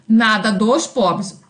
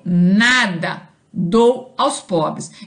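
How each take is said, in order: First: It is said without a pause after "nada". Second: There is a pause after "nada".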